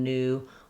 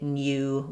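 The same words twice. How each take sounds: First: The oo vowel comes with no y sound. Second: A y sound comes before the oo vowel. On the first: This is the American pronunciation. "rather than new" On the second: This is the British pronunciation. "in U K English, they haven't dropped the y sound, so they will say new"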